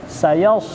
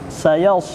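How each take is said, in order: Both takes have the same delivery.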